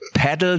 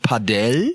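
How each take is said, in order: First: It is said the usual German way. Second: It is said the original Spanish way. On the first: This is the everyday local name. The speaker calls it wrong. "wie man, glaube ich, bei uns in Deutschland sagt" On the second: This is the proper original name. The speaker calls it right. "das heißt eigentlich Padel"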